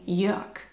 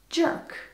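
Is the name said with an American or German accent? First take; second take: German; American. First: It is said with a German pronunciation. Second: It is said with an American pronunciation.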